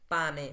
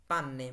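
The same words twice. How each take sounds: First: পানে with a short single n; single consonant pane. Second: পান্নে with a held double nn; double consonant panne. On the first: Teacher contrasting single n in পানে, short n. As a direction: say পানে with a quick light n, no hold. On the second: Teacher showing Italian double nn in পান্নে, held. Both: Shown as a demonstration. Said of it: "দোপ্পীয় কনসোনান্তে".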